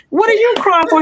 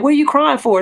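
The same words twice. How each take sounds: First: Laughing incredulous question. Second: Mildly raised, bemused asking; puzzled question. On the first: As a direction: laugh it off at the doctor. Tells doctor off, laughing. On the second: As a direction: lightly mimic the puzzled question. Asks why people cry. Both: Retold or imitated.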